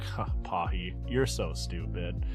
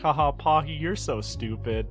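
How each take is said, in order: First: It is said in a flat, scornful tone. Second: It is said in an amused, laughing tone.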